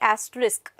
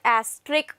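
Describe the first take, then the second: First: The middle S sound is heard briefly. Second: The middle S sound is dropped entirely. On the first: The speaker calls it right. "S is not silent, although we pronounce it for a very short duration" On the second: The speaker calls it wrong. "It is not asterisk"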